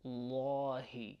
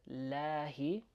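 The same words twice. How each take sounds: First: Lahi, long first vowel like "aw"; heavy la. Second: Lahi with a front a as in cat; lahi, long a kept forward and light. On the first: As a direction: say "lahi" with a dark, full a. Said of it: "we're saying". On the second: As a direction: say "lahi" with a thin, light laa. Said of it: "Instead of lahi". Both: Shown as a demonstration.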